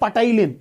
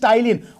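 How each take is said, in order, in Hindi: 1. शब्द की शुरुआत एक सुनाई देने वाली p ध्वनि से होती है। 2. शब्द की शुरुआत t से होती है, p नहीं। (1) "don't say पटाइलिन" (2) "it is पी silent, so it is टाइलिन"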